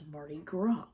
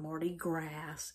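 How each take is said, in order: First: It is pronounced the French way. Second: It is pronounced the way the spelling looks. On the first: The speaker calls it right. "it's Mardi Gras" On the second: The speaker calls it wrong. "It's not Mardi Gras"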